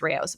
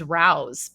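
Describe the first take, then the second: First: The name is two syllables, like ray-ohs. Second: The name is one syllable rhyming with house. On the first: The speaker calls it right. "but apparently it's Rayo's" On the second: The speaker calls it wrong. "I've been pronouncing it wrong. I always thought it was Rouse"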